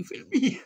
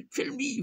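First: Much higher and louder lamb demanding "film me"; louder lamb plea. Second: Much higher lamb asking "film me"; squeaky lamb plea. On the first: Lamb insisting the vlogger films it, high and loud. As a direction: shout "film me" like a pushy lamb. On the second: Lamb pleading with the vlogger to be filmed, high. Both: Pretend. Lambs voiced wanting camera time.

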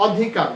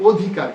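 First: "অধিকার" with an open first vowel, ɔdhikar; "অধিকার" shown wrong as ɔ-dhikar. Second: "অধিকার" with a closed o, odhikar; "অধিকার" as o-dhi-kar, lips slightly pressed; correct closed vowel. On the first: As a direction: say "অধিকার" starting on a wide ɔ. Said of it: "এখানে কিন্তু অধিকার না". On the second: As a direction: say "অধিকার" starting on a rounded o. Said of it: "হচ্ছে অধিকার, কারণ". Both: Shown as a demonstration.

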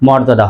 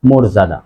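First: মর্যাদা said "mawrjada"; wrong open vowel. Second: মর্যাদা said "morjada"; rounded o starting মর্যাদা; correct o sound. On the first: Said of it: "মর্যাদা হবে না". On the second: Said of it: "সঠিক উচ্চারণ কি হবে". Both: Shown as a demonstration.

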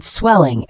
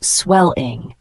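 First: Said in the usual way. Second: Swelling said slowly in two separate syllables; syllable-by-syllable pronunciation. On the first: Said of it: "The word swelling". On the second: Shown as a demonstration. Teacher showing learners how it is pronounced, swelling slowly in two parts. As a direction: sound out swelling slowly, swell then ing.

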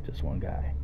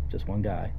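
First: Just one guy, said much lower and darker; a low, brooding echo of the line; low ominous repeat. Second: Said in the usual way. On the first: Acted.

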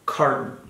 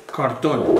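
First: "Carton" said the English way, car stressed; English pronunciation. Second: "Cartón" with Spanish stress on the o; Spanish "Cartón" as the contrast; Spanish pronunciation. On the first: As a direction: model "Carton" as English KAR-tn. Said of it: "muy difícil de pronunciar". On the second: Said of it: "como si no existiera la O". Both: Shown as a demonstration.

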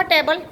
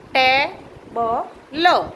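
First: Said in the usual way. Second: table broken into slow, separated sounds "te - ba - lo"; syllable by syllable. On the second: Shown as a demonstration. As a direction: sound out table very slowly for someone writing it. Teacher sounds out word for writing.

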